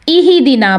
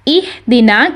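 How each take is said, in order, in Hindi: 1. h और d के बीच "i" स्वर सुनाई देता है। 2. h और d के बीच कोई स्वर सुनाई नहीं देता। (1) "मैंने हा पर कसरा लगा दी" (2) "हा साकिन था"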